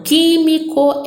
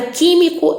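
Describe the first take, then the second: First: Químico with QUÍ raised and drawn out; teacher sounding out QUÍ-mi-co, leaning on QUÍ; stress on the antepenultimate. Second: Said in the usual way. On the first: Shown as a demonstration. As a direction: lift the first syllable of químico, slowly. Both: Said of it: "Antepenúltima forte".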